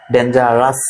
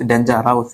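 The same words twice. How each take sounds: First: ডেঞ্জারাস as "den-ja-ras"; ডেঞ্জারাস measured out, no "ow" at the end; correct pronunciation demo. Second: ডেঞ্জারাস as "den-ja-raus"; ডেঞ্জারাস with an "ow" in the ending; mispronunciation demo. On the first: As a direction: give ডেঞ্জারাস a plain "-ras" ending. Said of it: "আস হবে". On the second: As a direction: wrongly end ডেঞ্জারাস on "-raus". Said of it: "এরকম হবে না". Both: Shown as a demonstration.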